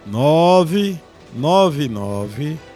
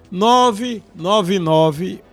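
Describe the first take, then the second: First: It is said slowly and deliberately. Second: It is said at a normal, quicker pace.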